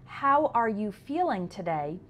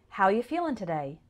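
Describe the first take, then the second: First: Each word is said separately and clearly. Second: The words are run together and shortened. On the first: "So the question" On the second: "often sounds like"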